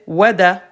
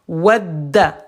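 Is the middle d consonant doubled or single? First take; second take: single; doubled. First: The middle d sound is short and single. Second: The middle d sound is held long and doubled. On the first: "Si j'enlève shadda, ça fait wada" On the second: "Shadda, ça veut dire on double, on appuie, on insiste"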